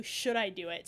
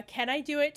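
First: "Should" emphasized, asking for advice; stress on Should. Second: "Can" lifted, asking for permission; stress on Can. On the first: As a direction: ask lower, leaning on "Should". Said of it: "it's more like". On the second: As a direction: ask higher, leaning on "Can". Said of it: "switched from being a". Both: Shown as a demonstration.

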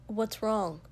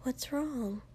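First: A touch of sharpness; mildly sharp question; sharply. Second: Soft, slightly high worried question; careful and quiet, voice lifted a little; hushed. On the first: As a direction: ask it pointedly, without raising the voice. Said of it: "Shoto said sharply". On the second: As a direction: ask it gingerly, hushed. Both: A narrator's reading.

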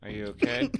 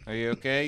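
First: Pitched way up, teasing worry; high mock concern. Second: Said in the usual way. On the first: Real, not acted. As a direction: squeal it out in fake concern.

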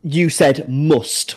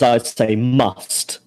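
First: "must" as the friend says it; slow, drawn-out "must" in the friend's vowel; other speaker's "must". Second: "must" in the speaker's own vowel; slow, drawn-out "must" said one's own way. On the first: Showing a friend his pronunciation, "must" his way. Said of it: "you said must, whereas I'd say". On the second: Contrasting with a friend's accent, "must" own way. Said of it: "whereas I'd say must". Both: Shown as a demonstration.

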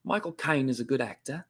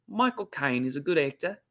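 First: Corrected, lightly done Cockney accent; Michael Caine. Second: Cockney attempt slipping into an Australian accent; Cockney gone Australian. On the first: Host retrying after drifting Australian, Cockney accent. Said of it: "I think of Michael Caine". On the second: Host failing at Michael Caine's accent, accidental Australian twang. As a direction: botch the Cockney so it sounds Australian. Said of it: "I just went to Australian accent". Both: Shown as a demonstration.

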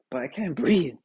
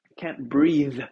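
First: Said in the usual way. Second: "breathe" louder, its final TH pressed; emphasised TH. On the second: Shown as a demonstration. Sick podcaster correcting himself, emphasised TH on "breathe". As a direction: lean hard on the TH ending "breathe". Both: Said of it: "put some emphasis on the T H".

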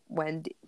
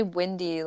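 First: Said in the usual way. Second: "Wendy" said as "Windy"; first vowel of "Wendy" as a short i. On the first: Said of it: "you say Wendy, like Wendy". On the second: Retold or imitated. Teasing a friend's pronunciation, "Wendy" as "Windy". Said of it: "and you say Wendy".

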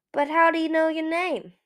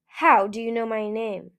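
First: Higher, louder, puzzled question. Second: Firm, louder demand. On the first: Another Skywing asks Eagle about the stranger, puzzled. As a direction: ask it in bafflement. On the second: Skywing challenges a stranger who called him, demanding. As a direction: demand an answer. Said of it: "the Skywing demanded". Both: A narrator's reading.

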